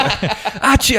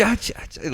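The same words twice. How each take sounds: First: High mock sneeze, full volume; sneeze imitation. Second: Mock sneezes getting fainter; fading sneezes. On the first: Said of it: "walking away ... fainter". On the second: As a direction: sneeze as if walking away.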